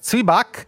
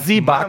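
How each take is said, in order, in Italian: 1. Si pronuncia alla maniera tedesca standard. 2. Si pronuncia alla maniera dell'italiano ticinese.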